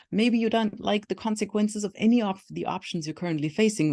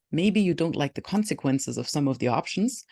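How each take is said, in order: First: Higher-pitched sentence with "any" punched; stress on "any". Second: Said in the usual way. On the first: Shown as a demonstration. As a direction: lean hard on the word "any". Second take widens some to any.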